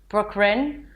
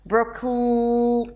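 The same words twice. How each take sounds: First: The consonant after the K sounds like an R. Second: The consonant after the K is a held L. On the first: The speaker calls it wrong. "If you tend to confuse the L with the R, and then it sounds something like" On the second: The speaker calls it right. "Hold it out if you need to"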